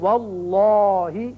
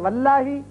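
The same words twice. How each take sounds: First: The L is pronounced heavy and full. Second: The L is pronounced light and thin. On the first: The speaker calls it right. "अगर जबर आए तो हम पढ़ेंगे" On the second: The speaker calls it wrong. "तो यह गलत है"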